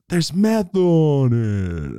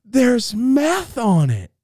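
First: Loud, stretched, sliding downward; slow-mo cry sinking in pitch; slow-motion. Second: High, loud, drawn-out announcement; hammed-up high-pitched warning; alarmed cry. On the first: Acted. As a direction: drag it out like slowed-down film. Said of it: "I can hear it in slow-mo". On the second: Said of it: "she goes".

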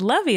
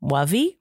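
First: Said in the usual way. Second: "Wovey" with W for L; questioning little-kid "Wovey"; child's mispronunciation. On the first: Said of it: "And I said". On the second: Retold or imitated. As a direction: imitate a toddler asking "Wovey?", the L softened to W. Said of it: "Flynn said to me the other day".

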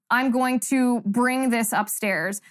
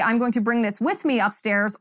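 First: "I'm going to bring this upstairs" said slowly as the wrong usage; slow wrong example. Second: "with" stressed in "bring this with me upstairs"; correct version. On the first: Host demos the grammar error for viewers. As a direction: spell out the mistake slowly. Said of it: "by saying". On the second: Host corrects the grammar for viewers. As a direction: lean on with to show the fix. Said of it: "The correct grammar would be". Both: Shown as a demonstration.

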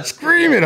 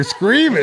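First: Very high, loud scream it, pushing further; husband urging wife on, even higher and loud. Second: High, loud scream it; husband urging wife on, high and loud; egging her to scream. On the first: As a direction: top the last one, even more thrilled. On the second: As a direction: urge her on with a yell. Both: Retold or imitated. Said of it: "Yelling more out loud".

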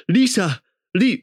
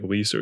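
First: High, mock-cartoon cry of the name; South Park-style voice. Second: Said in the usual way. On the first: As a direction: imitate a strange cartoonish American accent, high. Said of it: "like, some South Park shit". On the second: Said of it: "he talks, like, pretty normal".

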